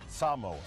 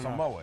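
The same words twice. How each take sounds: First: It is said the local Samoan way. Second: It is said the common American way. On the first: The speaker calls it right. "It's Samoa" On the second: The speaker calls it wrong. "us in the States always go"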